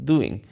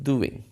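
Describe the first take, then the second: The two takes are said the same way.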